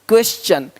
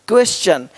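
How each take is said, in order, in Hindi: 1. t का उच्चारण ch की तरह होता है। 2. t का उच्चारण ch की तरह होता है।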